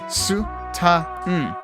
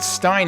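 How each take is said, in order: First: The vowel is a short A sound. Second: The vowel is a long I sound. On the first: The speaker calls it right. "There's only a short A sound" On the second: The speaker calls it wrong. "there's no long I sound in there at all"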